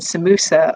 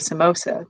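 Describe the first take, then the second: First: It is said the Southern African way. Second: It is said a different, non-Southern African way.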